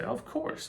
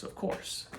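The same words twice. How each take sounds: First: High falsetto vendor. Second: Whispered vendor. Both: Retold or imitated. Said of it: "And say".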